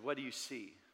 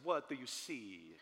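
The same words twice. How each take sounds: First: It is said in the speaker's normal voice. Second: It is said in a put-on Michelangelo voice.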